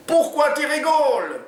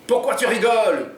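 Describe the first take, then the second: First: Very high, slow, loud Oumar voice; put-on yell. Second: High, loud demand from Jean; Jean yelling at the hostage who laughs; mock yell. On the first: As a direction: copy the question even louder. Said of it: "hurle Oumar à son tour". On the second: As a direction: snap at the laughing woman. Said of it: "hurle Jean".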